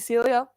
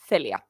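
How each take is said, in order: First: The name begins with an s sound. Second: The name begins with a th sound. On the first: This is how English speakers say the name. "my American friends, call me Celia" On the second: This is the name's native pronunciation. "in Spanish, we have the th sound"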